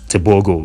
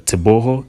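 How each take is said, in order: First: The last syllable starts with a g sound. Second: The last syllable starts with an h sound. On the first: The speaker calls it wrong. "so it's not Tebogo" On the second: The speaker calls it right. "that G O is pronounced as Ho"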